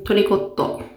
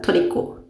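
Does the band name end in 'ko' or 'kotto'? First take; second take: kotto; ko. First: The name ends with a doubled 't' sound. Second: The name ends with a plain 'ko' sound. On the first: The speaker calls it wrong. "トリコットじゃないんだ。" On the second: The speaker calls it right. "これ読み方。"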